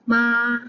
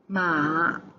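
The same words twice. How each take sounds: First: It is said with the first tone. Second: It is said with the third tone.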